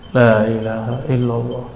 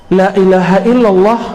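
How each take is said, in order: First: Low, soft recitation; mindful recitation. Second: Firm, projected recitation; hypocrite's recitation. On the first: Preacher shows reciting with aware mind, soft low recitation. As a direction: recite inwardly, hushed and low. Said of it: "pikiran sadar". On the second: Preacher cites the hypocrite's reading, firm recitation. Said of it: "Bacaan la ilaha illallah orang munafik". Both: Shown as a demonstration.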